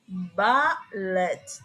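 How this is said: It is said with a British accent. "In British"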